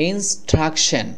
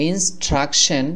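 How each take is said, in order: The two takes are said the same way.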